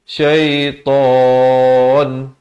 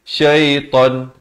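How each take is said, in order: First: The long vowel before the stop is held long. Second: The long vowel before the stop is cut short. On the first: The speaker calls it right. "sekurang-kurang dua, empat atau enam harakat" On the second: The speaker calls it wrong. "Jangan pula kita baca dengan syaitan. Tak boleh"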